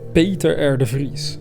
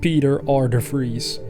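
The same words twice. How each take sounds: First: The name is pronounced with Dutch sounds. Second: The name is pronounced with American English sounds. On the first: "That's how you would pronounce it in Dutch" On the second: "for you Americans it would be something like"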